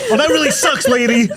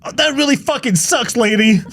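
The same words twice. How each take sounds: First: High put-on voice breaking into laughter; mock guy, laughing. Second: Much higher put-on voice, sneering; mock asshole guy. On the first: Mocking the guy again, high and laughing through it. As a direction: sneer it again while laughing. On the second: Mocking the guy who loses the diamond, high and sneering. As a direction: sneer it in a silly high cartoon voice. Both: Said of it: "He goes".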